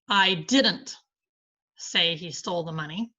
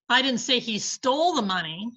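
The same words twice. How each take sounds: First: The stress falls on the word didn't. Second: The stress falls on the word stole. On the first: The speaker denies saying it at all. "I deny saying it" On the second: He has it but may not have taken it. "but he has the money"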